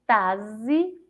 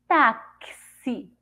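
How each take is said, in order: First: The x is sounded as a z. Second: The x is sounded as ks. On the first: "Se eu for ler com som de Z" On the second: "E com som de ceci"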